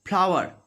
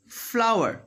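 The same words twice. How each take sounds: First: FLOWER said as "plower"; F made a P. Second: FLOWER with a long airy F; "fff-lower" for FLOWER; clear F. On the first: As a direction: lips closed, popping a P into FLOWER. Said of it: "But this is wrong". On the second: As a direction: teeth on lower lip, hiss into FLOWER. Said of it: "I am biting my lower lip". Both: Shown as a demonstration.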